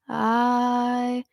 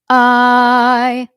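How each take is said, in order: First: The word starts with a low creaky rattle. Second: The word starts with a sharp throat catch. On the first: The speaker is casual, maybe tired or lazy. "with that fry onset" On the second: The speaker is confident and has something to say. "With a glottal onset"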